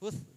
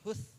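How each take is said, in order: Both takes have the same delivery.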